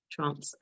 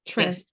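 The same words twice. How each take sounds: First: "trance" with a long broad ah, London style; British trance. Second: "Trance." with a flat short a, as in "ant"; American trance. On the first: Real, not acted. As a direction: say "trance" as "trahns", open back vowel. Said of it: "I've got my London accent". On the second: Shown as a demonstration. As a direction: say "Trance." rhyming with "dance" in American English. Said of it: "in American English, it's trance".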